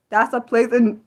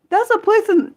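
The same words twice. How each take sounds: First: Said in the usual way. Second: High, startled read-out; amazed. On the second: Real, not acted. Streamer reading the place name aloud, amazed. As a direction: blurt it in amazement.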